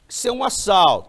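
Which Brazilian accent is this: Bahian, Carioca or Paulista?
Carioca. It is said in a Rio accent with hissing s. "E o assaltante carioca? Ah, esse aí chia demais"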